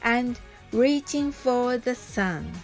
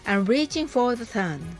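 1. このフレーズはゆっくり言われています。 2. このフレーズは速く言われています。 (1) "はじめはゆっくりです。" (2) "それでは早く言ってみましょう。"

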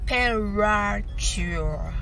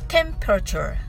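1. この単語はゆっくり言われています。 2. この単語は速く言われています。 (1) "はじめはゆっくりです。" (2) "次に早く"

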